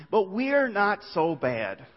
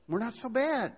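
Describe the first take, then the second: First: Drawn out, slow and reassuring; slow, soothing reassurance; slow insistence. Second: Higher, lightly mocking voice; high, mocking shrug; mocking echo. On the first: Acted. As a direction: stretch it out to soothe. Restating the liberal view. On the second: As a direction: toss it off like a smug excuse.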